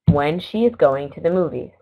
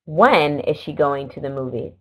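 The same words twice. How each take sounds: First: Said in the usual way. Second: Emphasis on When, pitched up, then falling away; question inflection. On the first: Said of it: "Listen to me as I read these four sentences". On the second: Shown as a demonstration. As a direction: lean on the opening "When" as a question. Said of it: "there's an emphasis on the word when".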